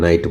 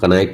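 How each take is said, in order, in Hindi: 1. यह शब्द n की आवाज़ से शुरू होता है। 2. यह शब्द k की आवाज़ से शुरू होता है। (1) "नाइट बोलेंगे" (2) "कनाइट नहीं बोलेंगे"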